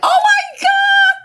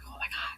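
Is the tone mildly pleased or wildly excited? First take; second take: wildly excited; mildly pleased. First: It sounds wildly excited. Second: It sounds only mildly pleased.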